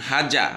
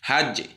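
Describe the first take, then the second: First: The final j is followed by a clear a vowel. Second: The final j bounces with a short e-like echo. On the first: The speaker calls it wrong. "হাজা বলছি না" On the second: The speaker calls it right. "ইকার বা একারের মতো টোনটা হবে"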